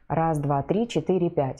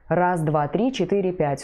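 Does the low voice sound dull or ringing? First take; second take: dull; ringing. First: The low voice sounds muffled and dull. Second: The low voice sounds resonant and ringing. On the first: The speaker calls it wrong. "Глухой голос" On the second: The speaker calls it right. "Но он озвучен при помощи резонаторов головы и груди"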